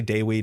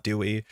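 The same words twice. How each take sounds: First: Dewi, opening on a clear DAY; correct Dewi. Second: Dewey as doo-ee; wrong Dewey. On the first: Streamer correcting a name for viewers, careful Dewi. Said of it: "it's definitely Dewi, not Dewey". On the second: Streamer showing the name to avoid, mistaken Dewey. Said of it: "not Dewey". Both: Shown as a demonstration.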